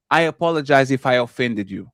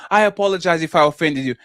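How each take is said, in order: First: Low, dismissive fake apology; insincere apology. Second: Smug, taunting fake apology; mock them while saying sorry. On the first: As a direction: say sorry without meaning it. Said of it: "while you laughing". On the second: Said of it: "That's the worst kind of apology".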